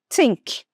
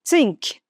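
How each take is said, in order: No difference in how they are said.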